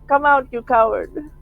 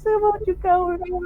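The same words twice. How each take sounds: First: It is said in a strong voice. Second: It is said in a very weak voice.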